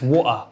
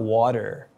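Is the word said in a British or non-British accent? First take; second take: British; non-British. First: It is said in a British accent. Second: It is said in a non-British accent. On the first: The speaker calls it right. "If you listen to the British accent" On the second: The speaker calls it wrong. "it's not water"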